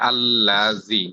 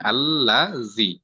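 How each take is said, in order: First: Said in the usual way. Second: আল্লাযী slowly, the doubled ল্ল held and pressed; doubled lam demo. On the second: Shown as a demonstration. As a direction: lean into the tashdid of আল্লাযী, slow. (আল্লাযী ধীরে, ল্ল তাসদিদ চেপে) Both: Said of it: "তাসদিদওয়ালা হরফকে দুই করা যায় না".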